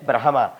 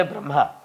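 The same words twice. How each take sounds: First: "Brahma" as Bra-ha-ma, h before m; common mispronunciation. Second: "Brahma" as Bram-ha, m before h; correct pronunciation. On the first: Teacher shows what people say, "Brahma" as Bra-ha-ma. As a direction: say "Brahma" in three syllables, Bra-ha-ma. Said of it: "People may say Brahma". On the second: Teacher gives the required form, "Brahma" as Bram-ha. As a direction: say "Brahma" in two syllables, Bram-ha. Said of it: "You have to say Brahma". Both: Shown as a demonstration.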